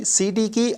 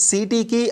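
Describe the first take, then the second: No difference in how they are said.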